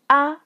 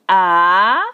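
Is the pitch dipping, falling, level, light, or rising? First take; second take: light; rising. First: The syllable is short, light and unstressed. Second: The pitch rises from middle to high. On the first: "that's the last tone" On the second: "That's the second tone"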